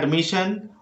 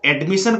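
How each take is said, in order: First: The first vowel is a short schwa sound. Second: The first vowel is an open 'eh' sound. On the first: The speaker calls it right. "इसको बोलना है एडमिशन" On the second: The speaker calls it wrong. "कुछ लोग गलती से बोलते हैं"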